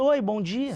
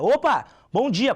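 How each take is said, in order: First: It is said weakly, without energy. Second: It is said lively, with lots of energy.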